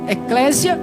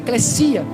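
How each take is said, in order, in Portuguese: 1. A consoante do meio soa como um z. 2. A consoante do meio soa como um s. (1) "o que alguns pronunciam eclésia. Devido ao português, às vezes o S tem som de Z" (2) "a pronúncia correta no grego, no grego é eclesia"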